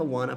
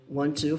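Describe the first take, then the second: First: The words are blended into one quick reduced form. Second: Both words are said fully and separately.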